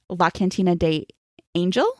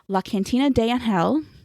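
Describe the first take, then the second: First: The name is said with an English-style pronunciation. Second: The name is said with a Spanish-style pronunciation. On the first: "if I was not trying to pronounce it the Spanish way" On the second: "I hope I just pronounced that correctly"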